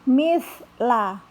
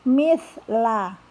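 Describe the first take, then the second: No difference in how they are said.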